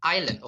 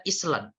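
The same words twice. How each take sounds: First: "Island" as "EYE-lund", s left silent; correct pronunciation. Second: "Island" read as "ISS-lan", s sounded; mispronounced island. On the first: Teacher confirming the word for learners, "Island" with silent s. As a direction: say "Island" without any s. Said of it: "that is the correct pronunciation". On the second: Teacher showing how some people misread it, "Island" as "iss-lan". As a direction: say "Island" as spelt, with short i and s. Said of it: "mungkin ada beberapa orang akan bacanya". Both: Shown as a demonstration.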